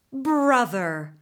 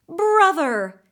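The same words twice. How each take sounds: First: A milder whinnying reply; whinnied back. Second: Loud, high horse's whinny of a word; whinnied call. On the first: Taltos horse whinnies back to his brother, milder. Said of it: "the Taltos horse whinnied back". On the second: Horse greets his long-lost brother with a loud whinny. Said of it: "he whinnied". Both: Acted.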